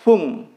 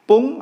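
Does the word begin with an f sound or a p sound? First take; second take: f; p. First: The word begins with an f sound. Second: The word begins with a p sound. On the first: "mau pakai p atau f" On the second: "mau pakai p atau f"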